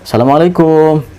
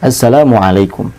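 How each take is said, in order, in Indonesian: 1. Suku kata terakhir dipanjangkan. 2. Suku kata terakhir diucapkan pendek dan biasa saja. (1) "Juga yang salah, ... Kum itu nggak panjang ya" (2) "nggak terlalu, biasa aja"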